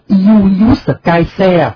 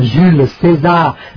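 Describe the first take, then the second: First: The name is said with Latin pronunciation. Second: The name is said with French pronunciation. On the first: "tiếng La Mã nguyên văn tên là" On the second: "nhưng mà đọc tiếng Pháp là"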